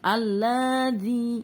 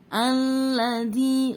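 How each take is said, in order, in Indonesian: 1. Vokal pada 'la' panjang. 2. Vokal pada 'la' pendek. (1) "bukan alladzi" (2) "lanya dibaca pendek"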